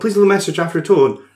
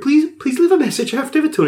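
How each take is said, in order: First: The message is said in an angry tone. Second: The message is said in a happy tone. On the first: "oh no, it's too angry" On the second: "oh no, it's too happy"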